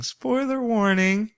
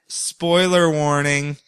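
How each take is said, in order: First: High, slow sing-song "Spoiler warning"; mock announcer spoiler warning. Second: Said in the usual way. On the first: Imitating her catchphrase, high and slow. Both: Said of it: "That's what she keeps saying".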